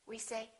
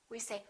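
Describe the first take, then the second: No difference in how they are said.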